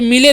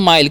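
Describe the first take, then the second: First: The vowel is short 'i' and the final e sounds. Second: The vowel is 'eye' and the final e is silent. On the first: The speaker calls it wrong. "इसे मिले नहीं" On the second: The speaker calls it right. "इसे भी पढ़ेंगे माइल"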